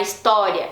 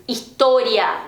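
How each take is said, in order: First: "história" with a wide open ó; open Portuguese o. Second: "história" with a closed o; closed Spanish o. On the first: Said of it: "não é história". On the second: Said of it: "mais fechadinho". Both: Shown as a demonstration.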